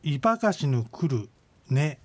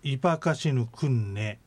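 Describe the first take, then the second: First: イパカシヌクル ネ with the R kept before ネ; unlinked イパカシヌクル ネ, pause before ネ; as spelled. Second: イパカシヌクンネ with final R turned into N before ネ; joined-up イパカシヌクンネ, N for R; linked pronunciation. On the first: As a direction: read クル and ネ separately, as written. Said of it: "ローマ字で". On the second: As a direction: link it so クル ネ becomes クンネ. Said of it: "つなげようとすると". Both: Shown as a demonstration.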